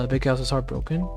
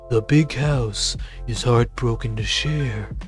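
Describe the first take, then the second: First: It is read in his normal voice. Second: It is read in a Duke Nukem voice.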